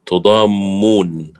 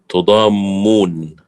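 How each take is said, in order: First: The m sound is doubled and held. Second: The m sound is doubled and held.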